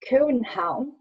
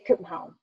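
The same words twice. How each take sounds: First: It is said in a Jutland accent. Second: It is said fast with sounds swallowed.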